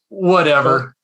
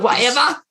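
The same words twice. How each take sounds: First: It is said in the speaker's ordinary accent. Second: It is said in a put-on British accent.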